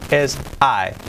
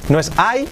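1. La palabra se dice con el diptongo inglés. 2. La palabra se dice con una vocal de estilo español. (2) "No es"

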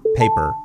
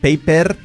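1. La r tiene la lengua echada hacia atrás. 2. La r tiene estilo español. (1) "lengua para atrás" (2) "con R española"

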